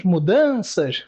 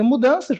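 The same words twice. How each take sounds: First: "mudanças" slower, "dan" stressed; "mudanças" devagar, acento no "dan"; stressed syllable shown. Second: Said in the usual way. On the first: Shown as a demonstration. (pronúncia lenta de "mudanças" marcando a tônica) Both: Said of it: "a última palavrinha".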